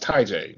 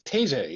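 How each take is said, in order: First: The first part sounds like 'tie'. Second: The first part sounds like 'tay'. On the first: The speaker calls it right. "It's pronounced Ty J" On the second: The speaker calls it wrong. "I've been saying it wrong this whole time"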